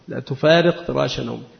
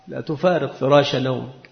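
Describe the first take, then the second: First: It is said in a scolding, reproachful tone. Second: It is said in a menacing, threatening tone. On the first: The listener's peers are getting ahead while he sleeps. "متى تكون للتوبيخ؟ ... يعني أصحابك يسبقونك" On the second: The listener will face consequences for staying in bed. "متى تكون هذه الجملة على سبيل التهديد؟ ... يعني سترى"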